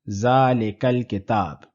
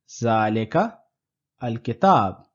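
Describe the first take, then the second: First: The two words flow together without a break. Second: There is a break between the two words.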